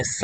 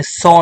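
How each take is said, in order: First: "સ" with a short neutral "uh" vowel; "સ" with the O reduced to schwa; O read as schwa. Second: "સો" with a full round "o", like "so"; "સો" read by its spelling; mistaken reading. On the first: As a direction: say "સ" as "suh", no round O. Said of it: "સ વાંચીશું". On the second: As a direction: show the wrong reading "સો" with O sounded. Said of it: "સો નહીં વાંચતા". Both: Shown as a demonstration.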